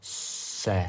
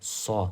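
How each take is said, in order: First: The vowel sounds light, like 'e'. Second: The vowel sounds dark, like 'o'. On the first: The speaker calls it wrong. "никогда не будет «с»" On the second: The speaker calls it right. "она будет «со»"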